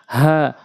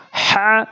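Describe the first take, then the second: First: হা from the start of the throat, unpressed; plain glottal হা; light throat H. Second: হা squeezed from mid-throat, pitched high; pressed throat H. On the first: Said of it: "হলকের শুরু থেকে". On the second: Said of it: "এটা চাপ দিয়ে". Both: Shown as a demonstration.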